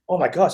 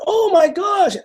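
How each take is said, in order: First: Said in the usual way. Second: Much higher, delighted squeal of recognition; excited gasp. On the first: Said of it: "And I'm like". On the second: Retold or imitated. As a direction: squeal it high like spotting an old friend. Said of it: "and she's like".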